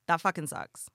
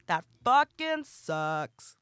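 First: Said in the usual way. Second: "fucking" drawn out slowly with weight; slow stressed repeat. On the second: Real, not acted. Repeating her complaint to listeners, "fucking" stretched slowly. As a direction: lean on "fucking", drag the whole line slowly.

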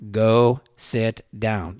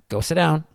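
First: Slow, spaced-out "go sit down"; calm, deliberate. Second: Said in the usual way. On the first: Retold or imitated. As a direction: leave a gap after each word in "go sit down". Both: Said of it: "pretty calm".

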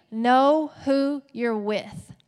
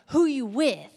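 First: Slow, louder, every word of "know who you're with" laid down deliberately; classy version. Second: A light gangster swagger on the title; mock gangster. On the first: Preacher giving the classy title to the church, slow and firm. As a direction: spell out "know who you're with" slowly and firmly. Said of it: "So we're just gonna keep it classy". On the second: Preacher trying out a gangster sermon title, lightly swaggered. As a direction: toss it off with a touch of street attitude. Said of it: "it sounded, like, really gangster". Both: Shown as a demonstration.

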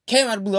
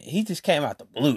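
First: Came said higher and louder, falling off; stress on came. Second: Said in the usual way. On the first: Shown as a demonstration. Repeating it to viewers, Came hit high and loud. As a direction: punch Came out the blue.

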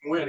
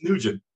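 First: Nguyen said the Vietnamese way, as the speaker's own name; correct Vietnamese name. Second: Nugent said as the plain English name NOO-jent; Americanized mispronunciation. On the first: Shown as a demonstration. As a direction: give Nguyen its proper Vietnamese sound. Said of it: "my name is Nguyen". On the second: Retold or imitated. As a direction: mimic the instructor who turns Nguyen into Nugent. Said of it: "No, it's Nugent".

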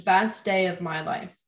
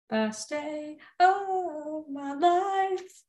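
First: Said in the usual way. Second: Slow sung line, stretched out; singing. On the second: Shown as a demonstration. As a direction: sing it slowly like a ballad. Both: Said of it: "Did you like the singing?".

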